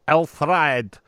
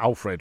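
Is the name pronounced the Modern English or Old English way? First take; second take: Old English; Modern English. First: The name is pronounced in an Old English way. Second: The name is pronounced in a Modern English way. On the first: This is how the name was said in his own time. "my best impersonation of how he would have been greeted at the time" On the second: This is how the name is said today. "which of course is the modern English version"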